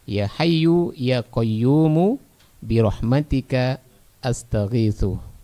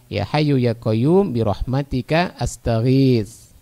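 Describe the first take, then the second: First: The final vowels of the words are pronounced. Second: The final vowels of the words are dropped. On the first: It helps learners know the final vowels. "kalau mau dikasih harokat qayyumu" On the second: It is how native readers actually read it. "harokat akhirnya tidak dibaca, disukunkan"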